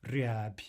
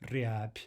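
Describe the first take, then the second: Both takes have the same delivery.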